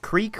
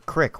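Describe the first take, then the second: First: The vowel is a long 'ee' sound. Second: The vowel is a short 'i' sound. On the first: "Is it creek or crick where you're from?" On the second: "Is it creek or crick where you're from?"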